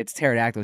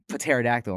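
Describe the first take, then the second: First: "pterodactyl" starting straight on the T, as "tero-dactyl"; silent P. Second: "Pterodactyl" with the P voiced as "puh-tero-dactyl"; sounded P. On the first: Retold or imitated. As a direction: leave out the P in "pterodactyl". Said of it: "It's silent". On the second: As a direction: say the silent P in "Pterodactyl". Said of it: "Then why is there P there?".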